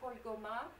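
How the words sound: The name is pronounced the French way. "Cette fois, j'ai prononcé à la manière française"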